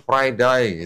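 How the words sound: It is said in an Australian accent.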